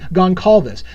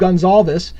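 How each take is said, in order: First: The middle consonant is a hard k sound. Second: The middle consonant is a soft s sound. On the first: "pronounced with a hard C" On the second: "I've been saying Steve Gonsalves"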